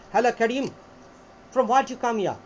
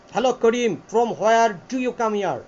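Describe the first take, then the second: First: British accent, "from where you come here" run together; British accent style. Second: Slow British accent, each word of "from where do you" separated. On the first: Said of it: "ব্রিটিশদের দুটো accent style আছে". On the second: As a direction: spell out "where do you" slowly in British style. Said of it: "এটা হচ্ছে টাটা system". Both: Shown as a demonstration.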